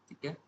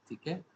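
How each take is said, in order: No difference in how they are said.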